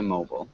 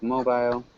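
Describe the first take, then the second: First: It is said in an American accent. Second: It is said in a British accent.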